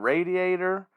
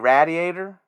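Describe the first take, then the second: First: It is said in the speaker's usual accent. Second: It is said in a Pennsylvania accent.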